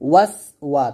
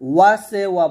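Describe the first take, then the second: First: The first syllable ends cleanly on the 's'. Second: The first syllable ends with an added 'e' vowel. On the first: The speaker calls it right. "বলতে হবে ওয়াস ওয়া" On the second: The speaker calls it wrong. "ওয়াসে ওয়া বলা যাবে না"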